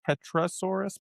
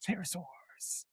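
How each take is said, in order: First: The word starts with a sounded P. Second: The word starts without any P sound. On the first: The speaker calls it wrong. "I'm not even going to attempt to pronounce" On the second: The speaker calls it right. "the P is silent"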